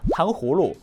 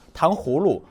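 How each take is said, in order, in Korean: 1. 가운데 h 소리는 분명하게 발음됩니다. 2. 가운데 h 소리는 분명하게 발음됩니다.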